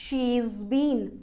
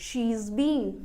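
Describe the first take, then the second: No difference in how they are said.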